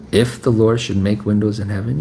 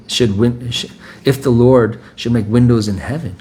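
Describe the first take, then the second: First: Said in the usual way. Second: Mocking the doubter.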